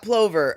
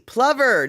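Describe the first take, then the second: First: The word rhymes with clover. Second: The word rhymes with lover. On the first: The speaker calls it wrong. "not plover" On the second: The speaker calls it right. "like lover with a P"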